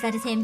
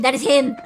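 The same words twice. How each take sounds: First: Said in the usual way. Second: Loud, laughing with excitement; excited laughing shout. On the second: Real, not acted. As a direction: burst out laughing, thrilled. Excited recognition.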